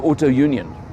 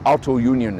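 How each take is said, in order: First: The name is pronounced the English way. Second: The name is pronounced the German way.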